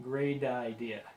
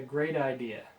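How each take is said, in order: First: The T in 'great' sounds like a D. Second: The T in 'great' sounds like a D.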